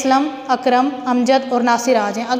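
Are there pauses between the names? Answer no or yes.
yes. Each name is followed by a short pause. Four separate people are present. The speaker calls it right.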